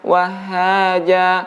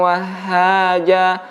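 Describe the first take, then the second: No difference in how they are said.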